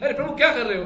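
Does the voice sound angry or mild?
mild. It is said mildly, without anger or shouting. It is only a casual remark. The speaker calls it wrong. "ऐसे ही खाली नहीं, ... ऐसे नहीं"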